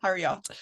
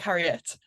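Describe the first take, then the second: First: The last syllable sounds like 'ot'. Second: The last syllable sounds like 'et'. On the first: The speaker calls it wrong. "sounds not quite right. I feel like it- it's like a yacht" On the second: The speaker calls it right. "I've just been saying it like it's E T, like Harriet"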